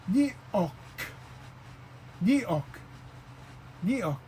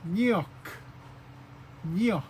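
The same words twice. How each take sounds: First: Nyok with a glottal catch before the o; word with the glottal mark; nyok with stop. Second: Nyok with a ny start and a falling tone; word without the mark. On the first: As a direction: nyok broken in the middle. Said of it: "Now it becomes". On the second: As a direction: nyok said short. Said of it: "this word is". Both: Shown as a demonstration.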